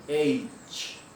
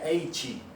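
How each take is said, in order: First: It ends cleanly without an added vowel. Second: It ends with an added 'ee' vowel. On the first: The speaker calls it right. "Não tem essa I no final. Então é cortar antes" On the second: The speaker calls it wrong. "o sotaque normal do português seria H"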